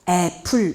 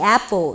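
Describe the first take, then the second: First: It is said with Korean-style pronunciation. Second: It is said with native English pronunciation. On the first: This is how the students know the word. "애플 이렇게 알고 있는데" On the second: This is how a native speaker reads the word. "원어민이 애플 이렇게 읽어서"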